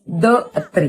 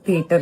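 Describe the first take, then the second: First: Every written letter is sounded, like the-atre. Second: It is said smoothly as thee-uh-ter.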